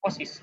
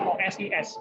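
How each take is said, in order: First: Osis spoken whole, o-sis; said as one word. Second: O S I S spelled out as separate letters, O-S-I-S. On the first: Teacher giving the right reading, as one word. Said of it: "kita nyebutnya kan osis". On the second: Teacher contrasting the wrong reading, letter by letter. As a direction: say O S I S one letter at a time. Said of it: "kita nyebutnya kan osis, bukan". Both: Shown as a demonstration.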